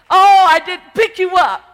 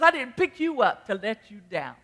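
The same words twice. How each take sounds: First: Big loud high cry on oh; full preached shout. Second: Said in the usual way. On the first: Acted. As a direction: belt the line out at the peak. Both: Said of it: "the song says".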